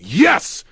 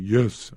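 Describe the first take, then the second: First: It is yelled loudly and strongly. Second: It is said quietly and weakly.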